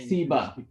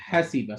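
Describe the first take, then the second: First: The opening h sound is missing. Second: The opening h sound is clearly heard. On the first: The speaker calls it wrong. "That would be wrong" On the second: The speaker calls it right. "when you say the fatha, you start using vibrations too"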